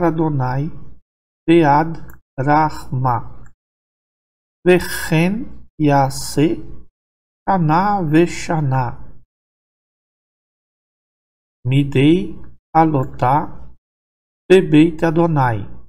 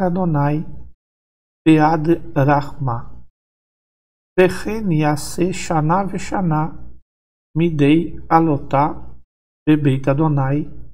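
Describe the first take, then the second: First: The passage is read slowly and carefully. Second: The passage is read faster, at normal speed.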